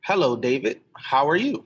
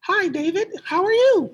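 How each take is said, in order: First: It is said in his natural voice. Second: It is said in a put-on female voice.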